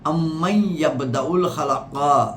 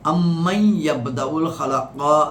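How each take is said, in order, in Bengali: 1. "amman"-এর n পরের শব্দের সঙ্গে মিশে যায়। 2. "amman"-এর n পরের শব্দের সঙ্গে মিশে যায়।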